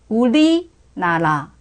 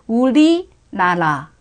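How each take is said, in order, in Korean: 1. 가운데 자음은 길게 늘어지고 겹쳐서 들립니다. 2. 가운데 자음은 길게 늘어지고 겹쳐서 들립니다.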